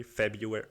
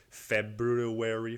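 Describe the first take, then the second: First: "February" as Feb-yoo-ary, no R after the B; silent R. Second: "February" slowly, sounding the R after the B; careful pronunciation. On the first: Puzzling over "February", testing it with a silent first R. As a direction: say "February" quicker, dropping the first R. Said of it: "that's a silent R". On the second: Puzzling over "February", testing it with the first R sounded. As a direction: try "February" out as Feb-roo-ary, drawn out. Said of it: "How do you fucking pronounce". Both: Shown as a demonstration.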